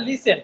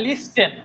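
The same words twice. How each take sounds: First: লিসেন as "li-sen", no "t"; silent T. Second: লিস্টেন as "lis-ten", with a "t"; wrongly sounded T. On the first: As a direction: say লিসেন with the T dropped. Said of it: "টির উচ্চারণটা এই জায়গায় হয় না". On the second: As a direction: say লিস্টেন with the T pronounced. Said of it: "যদি টির উচ্চারণ করেন শোনা যায়". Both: Shown as a demonstration.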